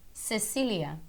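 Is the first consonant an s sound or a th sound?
s sound. The c is said like a plain s. This is how it is said in the Americas. "a gente faz esse som de C como se fosse um S"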